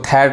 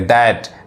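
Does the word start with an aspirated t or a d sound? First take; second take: aspirated t; d sound. First: The word starts with an aspirated t sound. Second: The word starts with a d sound. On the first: The speaker calls it wrong. "इसको थैट नहीं कहेंगे" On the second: The speaker calls it right. "द पढ़ाता है"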